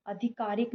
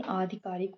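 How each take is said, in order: First: आधिकारिक opening on short a; mistaken first vowel. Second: Said in the usual way. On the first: Shown as a demonstration. Teacher showing an error, mistaken first vowel. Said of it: "नहीं". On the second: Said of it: "होता है".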